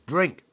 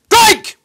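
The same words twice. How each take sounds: First: It is said in a normal speaking voice. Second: It is shouted in a loud Navy voice.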